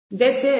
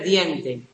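First: The word is said without the n sound. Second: The word is said with the n sound. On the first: A young child's simplified pronunciation. The speaker calls it wrong. "Dete en vez de diente" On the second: The standard adult pronunciation. The speaker calls it right. "en vez de diente"

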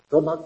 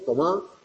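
First: The stress is on the first syllable. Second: The stress is on the last syllable. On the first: It is the command form used with tú. "Es llano" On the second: It is the command form used with vos. "Ese imperativo agudo"

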